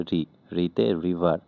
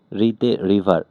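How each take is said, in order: First: রিতে river said slowly, syllable by syllable; slow it down so the learner catches রিতে river; slow repeat. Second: Said in the usual way. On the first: Shown as a demonstration. Teacher repeating the mnemonic slowly for learners.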